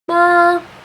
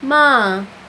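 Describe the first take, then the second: First: The pitch stays high and level. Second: The pitch starts high and drops down. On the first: "tone one is a flat tone, a flat high tone" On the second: "you start like high and, and drop down"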